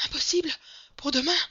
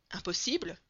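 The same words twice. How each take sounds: First: High, very loud, urgent outburst; frantic insistence. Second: Said in the usual way. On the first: A narrator's reading. Breathless servant telling his master of the wedding, frantic. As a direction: cry it out in agitated short bursts.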